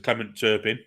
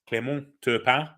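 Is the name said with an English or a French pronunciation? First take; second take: English; French. First: The name is said with English pronunciation. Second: The name is said with French pronunciation. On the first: This is how the name is known in England. "in England, he'd been known as" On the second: This is the name's native pronunciation. "Spanish, French pronunciation"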